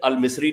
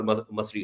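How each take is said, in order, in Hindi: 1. पहला स्वर 'i' की आवाज़ है। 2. पहला स्वर 'a' की आवाज़ है। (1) "वो कभी अल-मिस्री नहीं होता" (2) "वो हमेशा अल-मस मसरी होता है"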